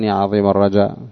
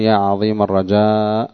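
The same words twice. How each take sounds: First: The final vowel of the last word is short. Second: The final vowel of the last word is long. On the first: It means side or direction. The speaker calls it wrong. "يخطئون في قولهم يا عظيم الرجاء فيقصرون ولا يمدون" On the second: It means hope. The speaker calls it right. "بالمد"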